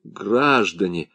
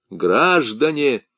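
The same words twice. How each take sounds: First: Soft, slow pleading call; pleading appeal. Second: Slow, drawn-out call to the crowd; roaring rallying speech. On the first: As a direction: plead for yourself. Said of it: "вступился за себя Паскье". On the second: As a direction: rouse the crowd. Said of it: "воззвал Бутри". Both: A narrator's reading.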